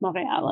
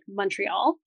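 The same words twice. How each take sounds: First: The word has a French pronunciation. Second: The first syllable sounds like 'mun'. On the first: "My father is French, so we would say like Montreal at home" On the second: "if you're Anglo-Canadian, we say like M-U-N"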